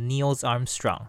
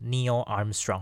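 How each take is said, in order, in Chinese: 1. 第一个名字以 s 音结尾。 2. 第一个名字不以 s 音结尾。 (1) "我念成Neil Armstrong" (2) "正确的念法应该是Neil Armstrong，没有那个S 才对"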